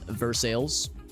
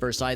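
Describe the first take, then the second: First: It is pronounced the local Missouri way. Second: It is pronounced the French way. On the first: "They pronounce it as" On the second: "the locals don't call it, don't pronounce it"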